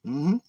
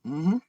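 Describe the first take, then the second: No difference in how they are said.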